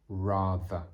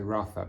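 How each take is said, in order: First: The middle consonant has a buzzing vibration. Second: The middle consonant has no buzzing vibration. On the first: The speaker calls it right. "You should hear like a vibration" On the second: The speaker calls it wrong. "Many people say rather"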